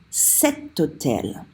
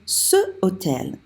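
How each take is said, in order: First: A t sound links smoothly into hôtel. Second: The vowel runs straight into hôtel with no t. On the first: The speaker calls it right. "That's why we say cet hôtel" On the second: The speaker calls it wrong. "it wouldn't sound right for us to say ce hôtel. It doesn't flow"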